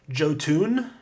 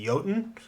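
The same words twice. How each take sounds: First: The word begins with a hard J sound. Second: The word begins with a Y sound. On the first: The speaker calls it wrong. "he reads the giants, the the Norse based giants as Jotun" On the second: The speaker calls it right. "it shouldn't be a hard J"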